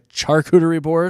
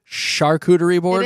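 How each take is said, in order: First: Charcuterie begins with a ch sound. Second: Charcuterie begins with an sh sound. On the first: The speaker calls it wrong. "Instead of a charcuterie board" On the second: The speaker calls it right. "I guess it's a charcuterie board"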